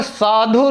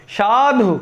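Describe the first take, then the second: First: साधु said with a plain s sound at the start; wrong pronunciation. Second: साधु said with a sh sound at the start; correct pronunciation. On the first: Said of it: "उच्चारण एकदम गलत है". (गलत उच्चारण, स से शुरू) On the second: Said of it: "साधु शब्द सर्वथा सही है". (सही उच्चारण, श जैसी ध्वनि से) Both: Shown as a demonstration.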